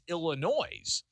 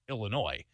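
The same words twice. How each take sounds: First: The final S sound is pronounced. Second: The final S sound is silent. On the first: The speaker calls it wrong. "can't you can't add that S at the end" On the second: The speaker calls it right. "it's the right way to pronounce it"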